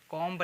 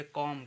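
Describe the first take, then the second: First: कॉम्ब with a sounded B; final B pronounced. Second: कॉम ending on M; silent B. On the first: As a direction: say कॉम्ब, releasing B after M. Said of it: "कॉम्ब नहीं कहेंगे इसे". (कॉम्ब के अंत में ब बोलकर) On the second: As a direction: say कॉम with no B at the end. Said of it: "तो इसको कॉम". (कॉम, अंत का ब मौन) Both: Shown as a demonstration.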